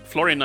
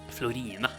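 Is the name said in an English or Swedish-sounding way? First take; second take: English; Swedish. First: The name is said with plain English sounds. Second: The name is said with Swedish-sounding vowels. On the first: "the proper way to uh, pronounce her name" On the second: "going this Swedish path"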